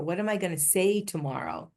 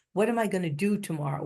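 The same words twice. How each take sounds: First: "What am I gonna say tomorrow?", "say" hit and falling at the end; stress on say. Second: "What am I gonna do tomorrow?", quick, the weight on "do"; stress on do. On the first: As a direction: land the question on "say". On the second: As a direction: hurry through it and lean on "do". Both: Shown as a demonstration. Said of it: "what we do and what we say".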